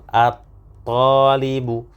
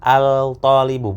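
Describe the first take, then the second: First: The L is silent and the T is doubled. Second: The L is pronounced before a single T. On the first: The speaker calls it right. "tidak terbaca huruf eh, lam sukunnya, langsung eh, masuk ke huruf setelahnya" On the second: The speaker calls it wrong. "bukan al-talibu, bukan. Ini kurang tepat"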